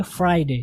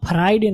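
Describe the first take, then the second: First: फ्राइडे as "FRY-day"; two-syllable फ्राइडे, falling at the end; correct pronunciation. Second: फ्राइडे as three-part "fa-RAI-day"; split-cluster "faraiday" for फ्राइडे; mistaken pronunciation. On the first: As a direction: join f and r tightly in फ्राइडे. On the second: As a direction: put a vowel inside the fr of फ्राइडे. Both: Shown as a demonstration. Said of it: "आप फ्राइडे नहीं बोलेंगे".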